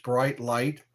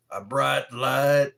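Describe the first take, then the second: First: Said in the usual way. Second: "bright light" drawn out slowly as "braht laht"; slow, loud "bright light" with flattened long-a vowels; put-on pronunciation. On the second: Repeats phrase in put-on voice.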